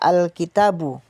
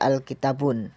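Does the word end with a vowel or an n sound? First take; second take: vowel; n sound. First: The word ends on a plain u vowel. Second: The word ends with an added n sound. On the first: The speaker calls it right. "wajib dibaca al-kitabu dengan dhammah saja" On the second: The speaker calls it wrong. "bukan dengan dhammatain seperti al-kitabun"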